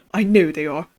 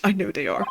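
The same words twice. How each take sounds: First: Lightly British paranoid prisoner; a hint of a British accent. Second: Said in the usual way. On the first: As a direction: say it with a slight British lilt. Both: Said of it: "he's not British".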